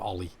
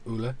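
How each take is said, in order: First: The name is said as 'OL-ee', ending in 'ee'. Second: The name is said as 'OO-la', ending in 'ah'. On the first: The speaker calls it wrong. "I called him Ollie, and everyone just looked at me and burst out laughing" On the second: The speaker calls it right. "how they pronounce it in Norwegian"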